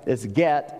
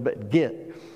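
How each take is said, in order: First: The vowel sounds like the one in 'bet'. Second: The vowel sounds like the one in 'bit'. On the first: This is how the word is spelled. "It's get, I know" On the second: This is the Southern way of saying it. "we pronounce it G-I-T"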